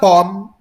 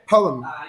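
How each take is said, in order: First: It is squeezed into one single syllable. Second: It has two syllables, the second one short. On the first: The speaker calls it wrong. "But it's not pom" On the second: The speaker calls it right. "better pronounced as poem and poet. You are to shorten the M or the second syllable"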